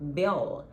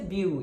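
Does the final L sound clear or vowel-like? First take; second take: clear; vowel-like. First: The final L is a clear tongue-touch L. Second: The final L sounds like a U vowel. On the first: The speaker calls it right. "fazer o som de L mesmo" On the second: The speaker calls it wrong. "não pode ser bill"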